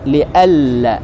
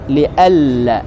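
First: The n merges into the l, unheard. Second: The same.

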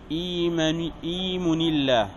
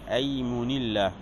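First: The first vowel is i. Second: The first vowel is a. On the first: "بكسر الهمزة" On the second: "بفتح الهمزة"

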